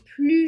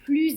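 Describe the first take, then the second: First: The final s of the word is silent. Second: The word ends with a z sound. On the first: "On ne prononce pas le S" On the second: "On prononce le S, mais attention, on entend le son Z"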